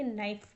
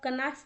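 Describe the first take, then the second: First: The word starts with an n sound. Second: The word starts with a k sound. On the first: The speaker calls it right. "इसको आप पढ़ेंगे नाइफ" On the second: The speaker calls it wrong. "इसको आप कनाइफ नहीं पढ़ेंगे"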